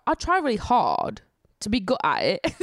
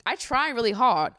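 First: Amateur put-on British accent; British accent attempt. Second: Said in the usual way. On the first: Shown as a demonstration. Vlogger trying out the accent she admires, shaky British accent attempt. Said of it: "wish I was good at it".

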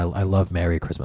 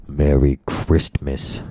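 First: Said in the usual way. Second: "Merry Christmas" very slow, with a hard T in "Christmas". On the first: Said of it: "they say it like that". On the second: Retold or imitated. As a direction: spit out the T in "Christmas", drawn out slowly. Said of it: "with a kind of a T in there, like a hard T".

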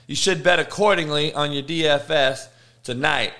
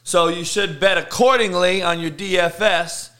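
First: "bet" leaned on, rest of the line plain; stress on bet. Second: Said in the usual way. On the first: Shown as a demonstration. Host repeating tip to bettors, stressing "bet". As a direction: hit the word "bet" harder the second time. Repeats betting advice with emphasis.

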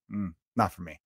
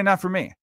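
First: Low, soft, offhand shrug of a reply; dismissive mumble. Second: Said in the usual way. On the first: Retold or imitated. Musician in a comfy chair shrugging off a song he dislikes, offhand mumble. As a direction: brush the song off quietly, barely bothered.

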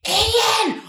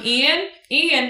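First: "Ian!" hissed high and loud; a loud stage whisper that gives you away; whisper yell. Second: "Ian, Ian" tossed out lightly; casual calling. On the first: [name]'s failed secret call, a high whisper-yell. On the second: [name] pretending to casually look for her nephew, relaxed. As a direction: call the name offhand, like nothing's wrong. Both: Shown as a demonstration. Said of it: "As opposed to going".

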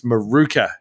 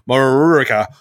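First: "Maruka" said the Australian way, mə-ROO-kuh; local pronunciation. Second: "Maruka" said the American way, mə-ROO-uh-kuh; an American drawl on "Maruka"; American mispronunciation. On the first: Shown as a demonstration. Correcting the American sat nav for a friend, Australian pronunciation. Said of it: "it's not Maruka. It's Maruka". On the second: Retold or imitated. Mocking an American sat nav for a friend, American accent. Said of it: "a weird American going".

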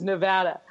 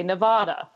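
First: Nevada with a short "a" as in "cat"; western pronunciation. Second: Nevada with a broad "ah" in the middle; eastern pronunciation. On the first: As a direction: say Nevada as "ne-VAD-a". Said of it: "on the west of the Rockies says Nevada". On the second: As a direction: say Nevada as "ne-VAH-da". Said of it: "you can always tell people who ... 'cause they say Nevada". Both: Shown as a demonstration.

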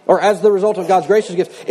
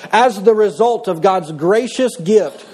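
First: Said in the usual way. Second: Slow, deliberate reading of "As the result of God's gracious gift"; slow solemn reading of "As the result of God's gracious gift"; slow scripture reading. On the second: Shown as a demonstration. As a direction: read "As the result of God's gracious gift" slowly, weighing each word.

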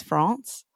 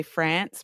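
First: France with a long open "ah" vowel, frahns; everyone else's France. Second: France said with a short flat "a" as in cat; Australian France. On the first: Host contrasting her own way with how everyone else says France, open ah. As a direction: say "France" with a broad ah, the way others do. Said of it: "everyone else says France". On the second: Australian host explaining her own France, short flat a vowel. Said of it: "I say France because I'm Australian". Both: Shown as a demonstration.

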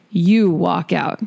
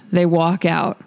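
First: YOU drawn out slowly as the punchline; stress on YOU. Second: Said in the usual way. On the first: Acted. Host closing the painter's quote, "you" slow and stressed. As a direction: lean long on "you", then let it land.

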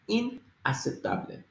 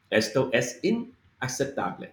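First: Inaceptable with every letter spoken clearly. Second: Said in the usual way. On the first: Shown as a demonstration. Teacher sounding out Inaceptable for learners, every letter clear. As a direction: sound out each letter of Inaceptable, no running together. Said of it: "So you're saying inaceptable". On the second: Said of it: "So this is, this is unacceptable".

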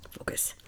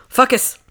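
First: Said in the usual way. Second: Breathy whisper to herself. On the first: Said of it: "self-focus, then whisper". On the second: Shown as a demonstration. Whispering to herself to get focused. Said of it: "whispered repeat".

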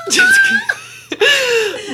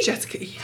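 First: Jessica stretched very slowly, high, through a laugh; laughing, drawn-out name. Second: Whisper. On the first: Savouring her co-host's name as a porn name, a long, high laughing "Jessica". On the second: Repeating co-host's name for fun. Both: Pretend.

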